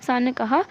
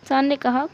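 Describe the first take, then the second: No difference in how they are said.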